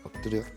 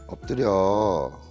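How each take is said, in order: First: The command is said in a timid, hesitant tone. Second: The command is said in a begging, pleading tone. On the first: The owner lacks confidence. "소심한 말투로" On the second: The owner is asking a favor. "부탁하는 듯한 말투로"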